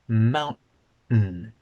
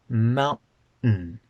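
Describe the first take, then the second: First: The middle sound is a glottal stop. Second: The same.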